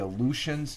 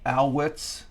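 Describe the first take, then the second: First: The name ends in a 'shuns' sound. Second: The name ends in an 'ets' sound. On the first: The speaker calls it wrong. "I pronounced it wrong" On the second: The speaker calls it right. "The U is uh, is like is pronounced with a W"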